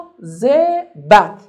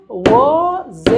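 First: مواظبت stretched slowly, louder, part by part; syllable-split word. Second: مواظبت drawn out slowly and louder; syllable drill. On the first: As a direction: sound out مواظبت slowly for the class. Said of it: "مواظبت said slowly to split". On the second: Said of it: "چند بخش داشت؟". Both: Shown as a demonstration.

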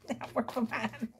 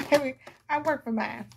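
First: Sassy aside. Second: Proud sass. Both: Shown as a demonstration. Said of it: "How about that?".

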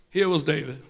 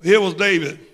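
First: "Here was David" dropped much softer, hushed. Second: Said in the usual way. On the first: Shown as a demonstration. Preacher repeating the name, much softer. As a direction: let it fall away softly. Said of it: "repeated softer". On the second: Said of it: "repeated line".

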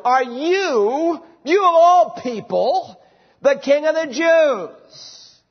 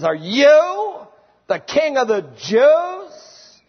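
First: "you" raised high and pushed, the rest drawn out slowly in disbelief; astonished Pilate. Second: Mock the very idea he's a king; sarcastic, incredulous. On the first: Acted. Pilate astonished, questioning the prisoner Jesus in disbelief. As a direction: Pilate can hardly believe it of this man. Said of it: "contains an element of astonishment". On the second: Pilate mocking Jesus with an incredulous, sarcastic question. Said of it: "It's very sarcastic and incredulous".

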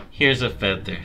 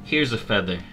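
The two takes are said the same way.

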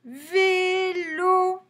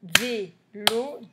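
First: Vélo high and loud, both vowels held long; drawn-out syllables. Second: Vélo split into two short beats at usual pitch; brief gap between the syllables of Vélo. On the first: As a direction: sing out Vélo on sustained notes. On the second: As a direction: tap out VÉ, then LO, separately. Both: Shown as a demonstration. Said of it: "Deux syllabes".

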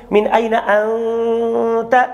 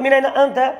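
First: من أين أنت؟ read slowly, the ن of من hidden and held two counts as in Quran recitation; من أين أنت؟ with tajweed ikhfa, the ن held long; tajweed ikhfa in speech. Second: Said in the usual way. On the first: Shown as a demonstration. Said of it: "فبعد ذلك هل أنا أقول لكم". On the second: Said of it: "فإذا قلت لك".

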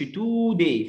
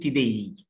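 First: Today as "TOOO-day", first vowel stretched; wrong long oo. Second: Today as "tih-DAY", weak first syllable; American schwa. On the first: Teacher warns learners off it, long oo. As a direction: say today with an exaggerated "too". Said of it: "ما نقولش". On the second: Teacher models American accent, reduced vowel. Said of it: "في الأمريكان أكسنت بنقول". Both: Shown as a demonstration.

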